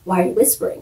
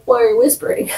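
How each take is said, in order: First: Said in the usual way. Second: Higher take on the repeated question; mock insistent question. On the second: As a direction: press the question in mock bafflement. [name] repeats his question, insisting.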